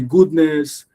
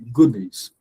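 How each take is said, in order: First: Both syllables carry equal stress. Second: One syllable is stressed more than the other. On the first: The speaker calls it wrong. "your good and your ness are equal" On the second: The speaker calls it right. "So it should be goodness"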